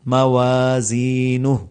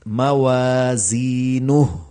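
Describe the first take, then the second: No difference in how they are said.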